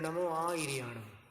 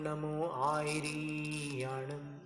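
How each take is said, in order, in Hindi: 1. 'ri' का स्वर ह्रस्व है। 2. 'ri' का स्वर दीर्घ है, लंबा खींचकर बोला जाता है।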